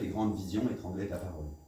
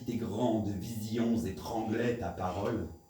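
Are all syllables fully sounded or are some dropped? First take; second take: dropped; full. First: Some syllables are run together, not fully sounded. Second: Every syllable is fully and separately sounded. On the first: The line misses its effect. The speaker calls it wrong. "mal, en refusant de prononcer tous les sons" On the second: Something more happens in the line. The speaker calls it right. "il se passe autre chose"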